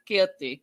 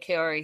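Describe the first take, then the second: First: The name is said as Keoti. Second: The name is said as Kaori. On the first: The speaker calls it wrong. "He kept saying Keoti" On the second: The speaker calls it right. "he couldn't say her name"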